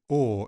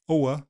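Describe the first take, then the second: First: The vowel stays steady as one long sound. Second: The vowel glides from one quality to another. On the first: The current smoothed form of the vowel. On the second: The older form of the vowel.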